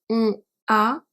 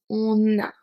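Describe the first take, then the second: First: The two words are said apart, without an n. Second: An n sound joins the two words together. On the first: The speaker calls it wrong. "on ne dit pas on a" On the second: The speaker calls it right. "on dit on a"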